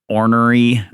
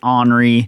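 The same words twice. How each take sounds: First: The word is carefully sounded out, letter by letter. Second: The word is said in a Kentucky way. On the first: "I see it in my head as I'm saying it, and I have to sound it out" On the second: "she's from Kentucky and just pronounces it ornery"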